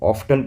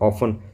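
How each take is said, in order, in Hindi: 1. बीच में t ध्वनि बोली जाती है। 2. बीच में t ध्वनि मौन रहती है। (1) "इसको ऑफ्टन पढ़ते हैं कुछ बच्चे" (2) "इसका रियल प्रोनाउंसिएशन क्या होता है"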